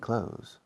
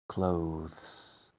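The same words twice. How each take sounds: First: It sounds like close, with no th sound. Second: A small th sound is heard before the s. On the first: This is the everyday form the speaker always uses. "I say clothes. ... Igual que lo, el verbo cerrar" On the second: This is the careful form a purist teacher uses. "Te dirá clothes, clothes. Y notarás un pequeño T H"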